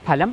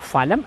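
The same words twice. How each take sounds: First: The word begins with an aspirated p sound. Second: The word begins with an f sound. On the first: The speaker calls it right. "ഫലം ആണ്" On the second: The speaker calls it wrong. "ഫലം അല്ല"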